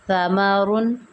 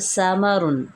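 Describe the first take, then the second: First: The s sound is plain, without a whistle. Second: The s sound is sharp with a whistle. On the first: The speaker calls it right. "बेहतर है मैं पढ़ती हूँ" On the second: The speaker calls it wrong. "सीटी की आवाज़ से पढ़ते हैं"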